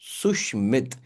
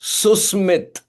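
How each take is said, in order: First: The middle consonant is a 'sh' sound. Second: The middle consonant is an 's' sound. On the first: The speaker calls it wrong. "you are pronouncing my name wrong" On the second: The speaker calls it right. "his name does not have the sh sound, it has the s sound"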